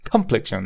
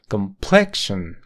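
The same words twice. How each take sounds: First: The stress is on the first syllable. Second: The stress is on the second syllable. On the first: The speaker calls it wrong. "cambiar esta forma fuerte o la sílaba tónica en, en la primera sílaba" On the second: The speaker calls it right. "La forma fuerte está en la segunda sílaba"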